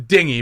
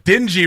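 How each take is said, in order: First: It sounds like the word for small boat. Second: It sounds like the word meaning dirty. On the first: The speaker calls it right. "it's a dinghy" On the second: The speaker calls it wrong. "I mispronounced it for comedy reasons"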